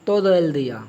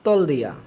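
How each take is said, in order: First: Every syllable of the phrase is pronounced. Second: The first words merge into one short syllable.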